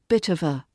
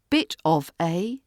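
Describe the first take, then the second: First: The words run together in one reduced chunk. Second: Each word is said separately and fully. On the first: "connected speech tip" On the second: "bit of a becomes"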